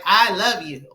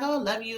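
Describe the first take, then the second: First: It is said in an earnest, serious way. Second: It is said in a casual, offhand way.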